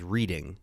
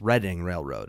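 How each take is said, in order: First: Reading is said with a long 'ee' vowel. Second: Reading is said with a short 'e' vowel. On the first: The speaker calls it wrong. "it reads as" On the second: The speaker calls it right. "It's how you're supposed to say it"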